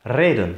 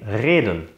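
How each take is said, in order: First: The r is rolled with the tongue tip. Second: The r is a rolled sound at the back. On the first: "das alveolare vibrante R" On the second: "mit dem uvularen vibranten R"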